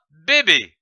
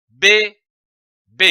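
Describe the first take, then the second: First: Said in the usual way. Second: "B, B" as two separate syllables, long pause between; split into syllables. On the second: Shown as a demonstration. Teacher joining two syllables for learners, each "B" isolated. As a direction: sound out each "B" on its own. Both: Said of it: "ces deux syllabes donne".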